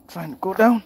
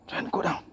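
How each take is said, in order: First: Louder, higher call urging himself on; raised urging call. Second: Said in the usual way. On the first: Real, not acted. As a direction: call it out as a rising shout. Repeats his own call louder.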